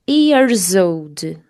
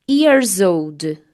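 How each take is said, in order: No difference in how they are said.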